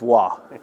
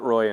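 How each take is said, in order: First: The name is said with a French 'wah' sound. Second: The name is said with an English 'roy' sound. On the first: The speaker calls it right. "it's Waugh" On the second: The speaker calls it wrong. "He called him Pat Roy, and he'd always say, just like that"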